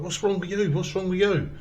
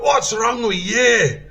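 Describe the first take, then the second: First: Higher-pitched mock questioning; recruits' questioning. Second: Loud, high, slow Scottish corporal shout; Scottish accent. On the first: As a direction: imitate mates asking, voice lifted. Fellow recruits questioning the limper. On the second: Retold or imitated. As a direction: bellow it in a put-on Scottish accent. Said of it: "This is my best Scottish accent".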